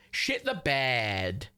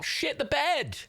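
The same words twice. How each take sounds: First: "Shit the bed" stretched very slowly; slow, level repeat of "Shit the bed"; slow drawn-out. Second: High excited burst; high, quick "Shit the bed"; excited exclaim. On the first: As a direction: savour each word, dragging it out. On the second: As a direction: blurt it out in delight. Reacting to a gifted sub. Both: Real, not acted.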